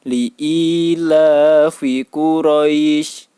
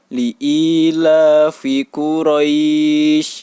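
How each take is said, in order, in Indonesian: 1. Vokal di Quraisy dibaca singkat. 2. Vokal di Quraisy dibaca sedang. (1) "Misalnya yang dua harokat. ... Ini yang dua harokat" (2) "Kemudian misalnya yang empat harokat. ... Ini yang empat harokat"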